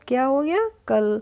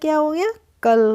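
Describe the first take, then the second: The two takes are said the same way.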